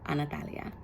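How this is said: The name is said with a Spanish accent. It is the true original form of the name. The speaker calls it right. "the original pronunciation of my name"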